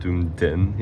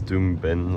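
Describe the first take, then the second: First: The name ends with a 'den' sound. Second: The name ends with a 'ben' sound. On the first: The speaker calls it wrong. "I always thought it was called Doomden" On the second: The speaker calls it right. "It's Doomben"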